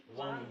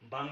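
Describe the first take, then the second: First: बांग said as वांग with a w sound; correct reading. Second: बांग with a hard b at the start; wrong way: बांग; wrong reading. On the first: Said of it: "वांग बोलेंगे". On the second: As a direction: say बांग with a plain b. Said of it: "बांग नहीं बोलेंगे". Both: Shown as a demonstration.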